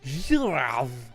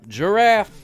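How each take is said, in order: First: The word is pronounced the French way. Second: The word is pronounced the English way. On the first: "here is how you say it en français" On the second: "how do you say giraffe in English?"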